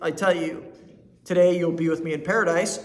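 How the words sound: The pause comes before the word today. They will be in paradise on this very day. "today you'll be with me in paradise. That means on this very day"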